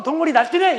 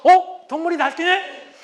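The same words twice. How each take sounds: First: Mocking out loud. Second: High, slow amused scoff; calm inner mockery. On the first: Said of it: "이러면서 겉으로". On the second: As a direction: calmly sneer in your head. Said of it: "아주 편안하게 마음속으로". (속으로 편안하게 비웃는 남편)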